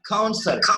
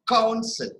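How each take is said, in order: First: The stress is on the second syllable. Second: The stress is on the first syllable. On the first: The speaker calls it right. "We are just cutting down the ka sound completely" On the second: The speaker calls it wrong. "We don't pronounce it council"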